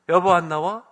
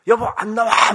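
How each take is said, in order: First: Raised but civil call to the wife; polite first call. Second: Impatient husband's high, loud shout; yelling. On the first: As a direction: call her out, holding back the temper. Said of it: "처음에 이렇게 공손하게 말해요". (공손하게 아내를 부르기) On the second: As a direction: yell for the wife to come out. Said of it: "막 소리 질러요". (아내에게 버럭 소리 지르기) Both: Acted.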